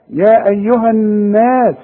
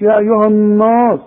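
First: Slow, higher recitation, الناس with thin fronted long vowel; light noon in الناس. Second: الناس with a thick, dark, backed long vowel, higher; wrong heavy noon. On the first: Teacher models it correctly, الناس with thin noon. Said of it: "شوف، الناس مش". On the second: Teacher shows what not to say, الناس with heavy noon. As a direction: say يا ايها الناس swelling the نا. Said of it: "الناس مش". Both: Shown as a demonstration.

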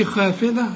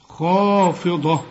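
First: خافضة with a light, thin خ; خافضة said as in plain everyday speech; the wrong way to say خافضة; wrong pronunciation. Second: خافضة drawn out very slowly with a heavy خ; the right way to say خافضة; correct tajweed. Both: Shown as a demonstration. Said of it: "هنا ما نقولش خافضة".

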